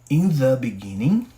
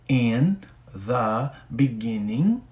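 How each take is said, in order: First: It is said at a normal pace. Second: It is said more slowly.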